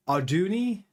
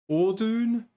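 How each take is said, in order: First: "Arduni" said ar-DOO-nee, questioning; "Arduni" tried aloud, three syllables, ending ee; trying Arduni. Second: "Ordune" said OR-dune, higher and questioning; "Ordune" tried aloud, first syllable OR, rising; trying Ordune. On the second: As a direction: test out "Ordune" with the stress on OR. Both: Shown as a demonstration. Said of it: "how do you pronounce Ardune".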